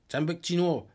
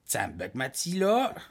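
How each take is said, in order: First: It is said with n and sh sounds. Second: It is said with l and s sounds. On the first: "Si on dit à Ouachat" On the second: "on va dire Tchambekmatila. À Pessamit"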